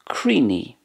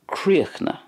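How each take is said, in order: First: It is shortened and ends in an 'ee' vowel. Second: The ending is cut short and silent. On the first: "And in Ulster, Creeny" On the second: "In Connacht then, we have a more of a silence at the end"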